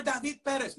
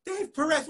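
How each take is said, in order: First: "David Perez" as da-VEED PEH-res, high; Spanish pronunciation. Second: "Dave Perez" as dayv puh-REZ, high and incredulous; anglicised name. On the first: Teacher correcting the student, insistent Spanish "David Perez". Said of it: "Dave Perez, what are you talking about?". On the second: Teacher repeating the student's version, incredulous anglicised "Dave Perez". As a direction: echo "Dave Perez" in English in disbelief. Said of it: "You're David Perez". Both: Retold or imitated.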